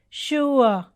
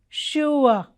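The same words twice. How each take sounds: Both takes have the same delivery.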